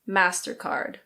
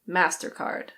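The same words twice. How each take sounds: First: It is said with an American accent. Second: It is said with an American accent.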